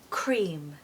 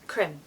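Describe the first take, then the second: First: The vowel is long and drawn out. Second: The vowel is short and clipped. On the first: The speaker calls it right. "the E A combination creates this lovely elongated sound" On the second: The speaker calls it wrong. "we don't want to say it too quickly because it's going to sound a bit strange. It's going to sound more like crim"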